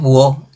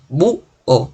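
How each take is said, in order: First: The vowels glide together into one syllable. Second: The vowels are split into two syllables. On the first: The speaker calls it wrong. "no decimos buo" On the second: The speaker calls it right. "decimos bu o en dos sílabas"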